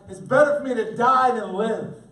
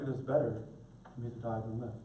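First: The line is said in an angry, bitter tone. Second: The line is said in a mild, non-angry tone. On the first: The speaker calls it right. "Jonah's mad, he's tired, he's hurting, he's ticked off at God" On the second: The speaker calls it wrong. "I don't hear Jonah being like"

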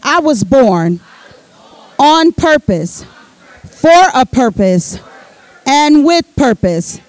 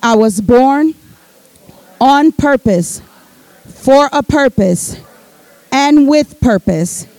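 First: It is said forcefully, with strong conviction. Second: It is said calmly, without extra force.

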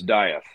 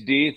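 First: The name is pronounced the American way. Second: The name is pronounced the German way. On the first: "If you're American, it's Dieth" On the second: "if you're German, it's Death"

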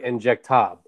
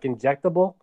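First: It is said French-style, the final ending dropped. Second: It is said in plain English, ending intact.

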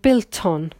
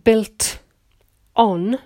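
First: The t moves over to start 'on'. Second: The t ends 'built', apart from 'on'. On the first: "the T will move to the vowel" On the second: "instead of saying built on"

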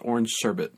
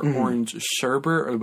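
First: The last word has no extra r sound. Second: The last word has an extra r sound. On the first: This is the standard way of saying it. The speaker calls it right. "There's no extra R in there" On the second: This is the familiar local way of saying it. The speaker calls it wrong. "as we call it"

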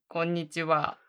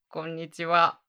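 Both takes have the same delivery.

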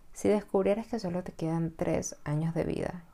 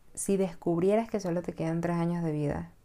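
The two takes are said the same way.

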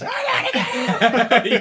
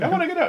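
First: It is said in an annoyed, louder way. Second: It is said in a calm, mild way.

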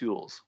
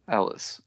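First: The name is said like 'Yules'. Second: The name is said like 'Ellis'. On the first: The speaker calls it wrong. "I thought it was pronounced Yules" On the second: The speaker calls it right. "It's Carrie Ellis"

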